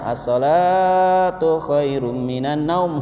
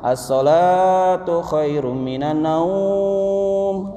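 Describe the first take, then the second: First: The vowel in the first word is drawn out. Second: The vowel in the final word is drawn out. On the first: It stresses that prayer is better. The speaker calls it right. "naumnya pendek. As-sholat la-nya yang panjang" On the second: It sounds like a call to sleep. The speaker calls it wrong. "naumnya panjang"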